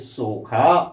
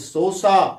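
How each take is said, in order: First: The middle consonant is a 'kh' sound. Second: The middle consonant is an 's' sound. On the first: "पढ़ते हैं सोखा" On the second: "लिखते हैं सोसा"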